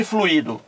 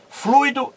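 First: "fluido" as flu-Í-do, stress on i; fluído with hiatus. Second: "Fluido" as FLUI-do, stress on u; fluido as diphthong. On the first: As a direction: say "fluido" with u and i split. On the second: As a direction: say "Fluido" with ui in one syllable. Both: Shown as a demonstration. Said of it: "são coisas diferentes".

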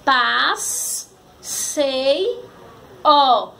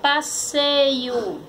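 First: "Paz, sei, ó" as three isolated syllables; long pause after each piece of "Paz, sei, ó"; sílabas separadas. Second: "passeio" as one slow whole word; palavra juntada. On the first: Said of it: "Formou a palavra passeio". ("Paz, sei, ó" sílaba por sílaba) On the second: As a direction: join the syllables of "passeio", unhurried. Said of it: "Formou a palavra". ("passeio" devagar, palavra inteira) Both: Shown as a demonstration.

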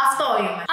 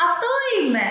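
First: Said in the usual way. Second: Mock girl's reply. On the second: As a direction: lift "Αυτό είμαι" up high, mimicking her.

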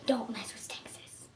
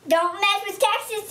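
First: Whispered, soft and low; hushed warning whisper; serious whisper. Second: "Don't mess with Texas" said high in a hammed-up Texas twang; playful Texas twang on "Don't mess with Texas"; Texas accent. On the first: Shown as a demonstration. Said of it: "but seriously". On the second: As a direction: belt "Don't mess with Texas" like a proud Texan. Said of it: "that was just my accent for Texas".

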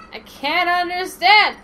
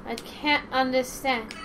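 First: Loud. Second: Said in the usual way. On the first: Acted. Repeated louder.

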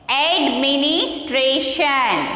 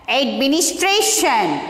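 First: "Administration." slowly, drawn out in parts; "Administration." sounded out slowly for learners; slow pronunciation model. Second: Said in the usual way. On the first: Shown as a demonstration. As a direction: stretch out each part of "Administration.". Teacher models a word in parts.

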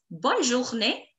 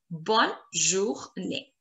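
First: Said in the usual way. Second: Slow, softer Bonne, jour, née; syllable by syllable. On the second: Shown as a demonstration. Teacher drills learners, Bonne journée slow and split. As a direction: say Bonne journée slowly in separate pieces.

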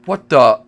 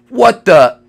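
First: Said in the usual way. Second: Loud, higher startled cry; shocked shout. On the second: Real, not acted. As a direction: blurt it out in shock. Shocked repeat.

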